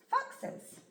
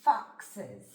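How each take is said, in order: First: "foxes" said quickly and higher as one word; blended quickly. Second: "Foxes" drawn out slowly, sound by sound. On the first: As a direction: snap "foxes" together. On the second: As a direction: take "Foxes" apart slowly. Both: Shown as a demonstration. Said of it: "Try it yourself first".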